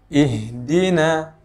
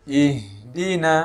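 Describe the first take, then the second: Both takes have the same delivery.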